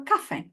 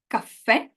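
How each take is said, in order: First: "caffè" stressed on "ca", final vowel light; first-syllable stress. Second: "caffè" stressed on the last syllable; final-vowel stress. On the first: Teacher offers class the other choice, stress on first syllable. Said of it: "First one, okay". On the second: Teacher offers class the first choice, stress on final vowel. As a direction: land the weight on the final è of "caffè". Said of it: "most of you said caffè". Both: Shown as a demonstration.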